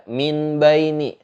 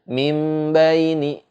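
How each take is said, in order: First: A clear n is said before b. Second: The n becomes a nasalized m before b. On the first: The speaker calls it wrong. "Itu pasti salah. Karena min baini itu hukumnya uh, jelas" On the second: The speaker calls it right. "disertai ada ada dengungnya"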